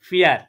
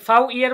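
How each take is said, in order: First: It begins with a plain 'f' sound. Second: It begins with the full letter name 'fow'. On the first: The speaker calls it right. "আমি কি বলেছি? ফিয়ার" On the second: The speaker calls it wrong. "এখানে কি আমি ফাউ ইয়ার বলেছি? না"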